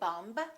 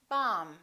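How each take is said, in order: First: The final B is sounded. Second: The final B is silent. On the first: The speaker calls it wrong. "We don't say bumb" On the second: The speaker calls it right. "the B is silent in the word bomb"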